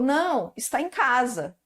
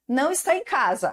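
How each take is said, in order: First: There is a pause right after 'não'. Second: It runs on without a pause after 'não'. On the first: He did not go out; he is at home. "o não com a vírgula" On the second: He is not at home. "esse aqui sem a vírgula"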